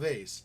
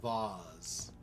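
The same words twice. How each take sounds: First: It is said with the ordinary everyday pronunciation. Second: It is said with a snooty, posh pronunciation. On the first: "It's not a" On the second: "the snooty pronunciation"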